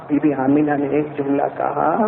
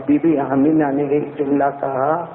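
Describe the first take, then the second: No difference in how they are said.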